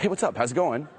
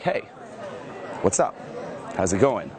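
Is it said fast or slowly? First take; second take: fast; slowly. First: It is said fast and rushed. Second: It is said slowly with impact.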